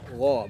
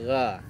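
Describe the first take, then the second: First: The gha sound is thick and full. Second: The gha sound is thin and light. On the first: The speaker calls it right. "gha-nya tebal ya" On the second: The speaker calls it wrong. "bukan gha"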